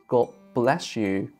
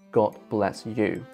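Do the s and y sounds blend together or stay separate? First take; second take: blend; separate. First: The s and y blend into one sound. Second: The s and y stay as separate sounds. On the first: "By the same token, we have" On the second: "instead of"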